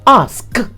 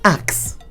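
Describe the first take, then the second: First: The s sound comes before the k sound. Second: The k sound comes before the s sound. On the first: The speaker calls it right. "It is pronounced ask" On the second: The speaker calls it wrong. "When you assume that the spelling of that word is A K S"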